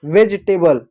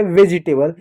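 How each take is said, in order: First: वेजिटेबल without the middle i, "vej-tay-bal"; correct pronunciation. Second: वेजिटेबल with an extra i, "ve-ji-tay-bal"; wrong pronunciation. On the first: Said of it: "वेजी नहीं होता है". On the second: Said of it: "गलत है।". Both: Shown as a demonstration.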